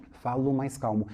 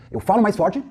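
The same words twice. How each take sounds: First: Softer, subdued teaching voice; calmer voice. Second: Firm, projected teaching voice; stronger voice. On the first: Instructor demonstrating voice contrast for class, calm and soft. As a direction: ease right down, soft and calm. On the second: Instructor demonstrating voice contrast for class, stronger and energetic. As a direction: push it out with more force and lift. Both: Shown as a demonstration.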